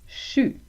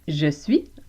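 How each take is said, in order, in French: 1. Les mots se fondent en une seule syllabe courte. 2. Les deux mots sont prononcés en entier. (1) "le français québécois utilise plus souvent chu" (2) "en français normatif"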